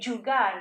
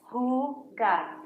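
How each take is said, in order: First: It starts with an English J sound. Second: It starts with an English H sound. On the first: The speaker calls it wrong. "I didn't say jugar" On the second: The speaker calls it right. "So who gar"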